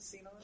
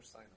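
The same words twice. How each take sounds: First: Sinon opening on an ee vowel; Sinon, first syllable like "see"; Sinon as "SEE-non". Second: Sinon opening on an eye vowel; Sinon, first syllable like "sigh"; Sinon as "SIGH-non". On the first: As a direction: pronounce Sinon with "see" at the front. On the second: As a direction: pronounce Sinon with "sigh" at the front. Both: Shown as a demonstration. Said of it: "they pronounce it Sinon or Sinon".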